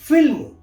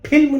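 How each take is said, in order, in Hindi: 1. इसकी शुरुआत f ध्वनि से होती है। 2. इसकी शुरुआत साँस वाली p ध्वनि से होती है। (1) "फ के नीचे आपकी बिंदी लगी हुई है" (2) "फिल्म नहीं"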